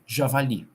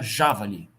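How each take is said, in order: First: The stress is on the last syllable. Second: The stress is on the first syllable. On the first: "E se ela fosse oxítona" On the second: "Se ela fosse proparoxítona"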